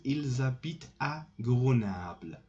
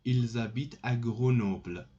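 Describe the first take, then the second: First: Grenoble said with "ah" in the middle, like Grenable; slip on Grenoble. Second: Grenoble said with a round "o" in the middle; corrected Grenoble. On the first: Teacher answering where they live, slip on Grenoble's vowel. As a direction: say Grenoble with an open "a" for the "o". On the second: Teacher correcting the answer, Grenoble with a clear "o". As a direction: say Grenoble with "noble" as its second half. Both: Real, not acted.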